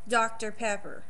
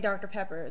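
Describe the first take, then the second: First: It is said with a strong Texas twang. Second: It is said in a plain, neutral accent. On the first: "They'd say" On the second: "they wouldn't say Doctor Pepper"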